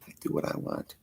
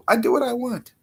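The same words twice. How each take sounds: First: Very soft, voiceless whisper; whispered like a sly aside; whispered defiance. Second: Much higher, small squeaky voice; high-pitched and cheeky; high playful defiance. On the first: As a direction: drop to a hushed whisper. Same line repeated, hushed. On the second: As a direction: pipe it up high in mock defiance. Playful defiance, repeated in contrast. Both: Pretend.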